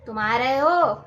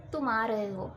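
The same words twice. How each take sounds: First: Louder, sharp angry demand. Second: Said easily and gently; relaxed everyday question; calm. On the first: Teacher demonstrating anger to students, loud and angry. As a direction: snap it at someone who annoyed you. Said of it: "गुस्से में". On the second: Teacher demonstrating to students, calm and gentle. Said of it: "मैंने बहुत ही आराम से बोला". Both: Shown as a demonstration.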